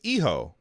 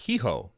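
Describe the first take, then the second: First: The word starts directly with a vowel sound. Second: The word starts with an h sound. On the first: The speaker calls it right. "it's Eho, not Hiho. ... it's like I H O" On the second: The speaker calls it wrong. "not Hiho"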